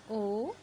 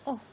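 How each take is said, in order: First: Long, held "oh" for O; long vowel O. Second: Short, cut-off sound for O; short vowel O. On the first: Teacher shows students the vowel's name, long O. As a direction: say O as the letter name "oh". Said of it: "name of the letters". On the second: Teacher shows students the letter's sound, short O. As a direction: say O as a brief "o". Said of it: "sound of the letter". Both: Shown as a demonstration.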